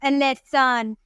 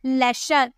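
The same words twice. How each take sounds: First: 'a lesson' begun as 'el', el-esson; letter name L. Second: 'लेसन' starting directly on L; plain L sound. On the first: Teacher showing what not to say, 'a lesson' as el-esson. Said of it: "ऐसे नहीं बोलेंगे". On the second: Teacher modelling the L sound, 'लेसन' begun straight on L. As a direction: begin 'लेसन' with a simple 'la' sound. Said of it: "ल करके पढ़ेंगे". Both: Shown as a demonstration.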